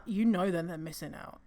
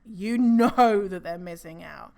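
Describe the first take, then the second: First: Said in the usual way. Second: "know" stretched out and loud; stress on KNOW. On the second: Real, not acted. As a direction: lean hard and long on "know". Repeated for emphasis.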